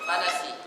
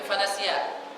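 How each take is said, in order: First: The word ends without a final short vowel. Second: The word ends with a final short vowel. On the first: The reciter stops at this word. The speaker calls it right. "kalau diwakafkan fanasi" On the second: The reciter carries on past this word. The speaker calls it wrong. "nggak mungkin fanasia kalau wakaf"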